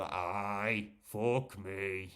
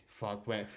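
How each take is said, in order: First: A broad Geordie "aye, fuck me"; Geordie accent. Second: Said in the usual way. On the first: Shown as a demonstration. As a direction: show off his own Geordie accent. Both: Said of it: "what kind of accent do you have?".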